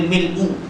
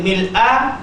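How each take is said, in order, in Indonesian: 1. Kata itu berakhir dengan vokal u. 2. Kata itu berakhir dengan vokal a. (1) "Dia pakai hamzah bagi depan pula" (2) "Dia pakai hamzah itu mil'a ... baris atas"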